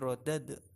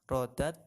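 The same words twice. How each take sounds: First: The final d is released with a bouncing echo. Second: The final d is stopped flat without echo. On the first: The speaker calls it right. "harus dipantulkan" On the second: The speaker calls it wrong. "Jangan dibaca"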